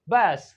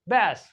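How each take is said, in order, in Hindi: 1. स्वर 'cat' जैसा है। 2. स्वर 'cat' जैसा है।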